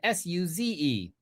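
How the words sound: The letters are said in an American accent.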